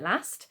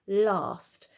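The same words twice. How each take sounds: First: The vowel is a short, flat a sound. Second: The vowel is a long ar sound. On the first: It is a regional pronunciation used elsewhere in the country. "some people in the country might pronounce it last, depending on where you're from" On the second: It is the pronunciation used in the south of England. "down south, the sort of pronunciation that I would use"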